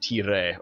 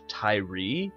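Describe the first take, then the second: First: The final e is silent. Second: The final e is sounded as 'ee'. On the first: The speaker calls it right. "It should be like tire" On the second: The speaker calls it wrong. "Which sounds just silly to me. ... Where the letter E makes the sound E"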